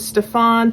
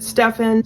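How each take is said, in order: First: The name is pronounced the French way. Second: The name is pronounced a non-French way. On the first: "Stefan is the proper French pronunciation of his name" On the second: "technically Jennifer pronounces it Stefan"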